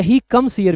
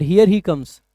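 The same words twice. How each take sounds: First: Said in the usual way. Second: Here said first and louder, falling; stress on here. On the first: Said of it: "पहले subject आता फिर verb आती". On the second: Shown as a demonstration. Teacher contrasting word order to students, stress on here. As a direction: lead with here, announcing he comes. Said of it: "दोनों में difference है".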